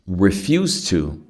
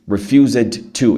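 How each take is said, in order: First: The final d blends into the following to. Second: The final d of refused is pronounced separately. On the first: The speaker calls it right. "Sem medo" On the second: The speaker calls it wrong. "E aí não fica natural"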